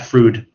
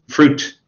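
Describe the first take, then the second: First: The final T sound is weak or dropped. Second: The final T sound is clearly pronounced. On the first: The speaker calls it wrong. "Not fruit" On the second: The speaker calls it right. "be careful with the T at the end of fruit"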